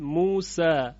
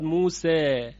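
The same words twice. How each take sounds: First: The final vowel is an open a sound. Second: The final vowel falls between a and e. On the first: "این فتح هست" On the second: "حالت وسطش میشود موسی، این حالت اماله صغرا یا تقلیل هست"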